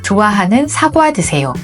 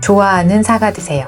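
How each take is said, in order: First: The h and diphthong sounds are articulated distinctly. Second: The h and diphthong sounds are blurred together. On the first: The speaker calls it right. "이렇게요" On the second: The speaker calls it wrong. "발음이 뭉개지는 사람들은 이렇게 발음합니다"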